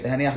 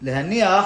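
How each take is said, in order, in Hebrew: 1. הצליל n יחיד וקצר. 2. הצליל n כפול, נאמר ארוך יותר. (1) "שם זה בלי דגש" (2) "להגיד להניח עם דגש"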